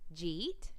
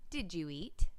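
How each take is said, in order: First: The words are run together into one syllable. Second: Each word is said clearly and separately. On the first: The speaker calls it wrong. "slurring your words together" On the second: The speaker calls it right. "instead of"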